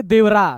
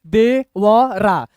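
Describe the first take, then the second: First: Said in the usual way. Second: Slow, each syllable held apart. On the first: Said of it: "तीनों मिला के". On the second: Shown as a demonstration. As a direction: read it out one letter at a time. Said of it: "अभी हम तीन ही अक्षर पढ़ेंगे".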